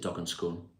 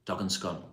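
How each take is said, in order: First: Scone is said the Southern English way. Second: Scone is said the Northern English way. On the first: "Scone's what Southerners say" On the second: "that just doesn't sound right"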